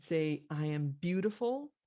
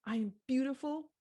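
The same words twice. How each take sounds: First: Lightly voiced mother, lilting up at the end; mother coaching child. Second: Put-on high toddler voice, rising at the end; little girl. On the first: Mother to crying little girl, lightly voiced coaching. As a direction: offer it for a child to repeat. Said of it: "the mother says". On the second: Little girl repeating after her mother, high childlike voice. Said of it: "the little girl says".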